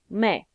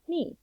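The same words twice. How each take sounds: First: It is said with the Spanish vowel sound. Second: It is said like the English word me. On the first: The speaker calls it right. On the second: The speaker calls it wrong.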